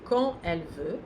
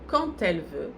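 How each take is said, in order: First: Quand and elle are said without a linking T. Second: A T sound links quand to elle. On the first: "a liaison é facultativa, ela não é obrigatória. Eu posso dizer" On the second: "se eu optar por fazer la liaison, vai ser fazendo o som T"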